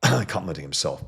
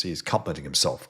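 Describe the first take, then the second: First: "Complimenting himself" said louder, with weight on "Complimenting"; emphatic repeat. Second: Said in the usual way. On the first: Real, not acted. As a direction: land "Complimenting" hard the second time.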